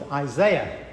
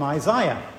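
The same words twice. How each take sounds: First: The name is said with an American pronunciation. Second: The name is said with a British pronunciation. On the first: "in the States he's called Isaiah" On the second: "We call him Isaiah"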